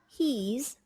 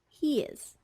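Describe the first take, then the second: First: The verb is contracted onto the subject. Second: The verb is unstressed with its H dropped. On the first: "becomes he's" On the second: "de-stress, delete the H"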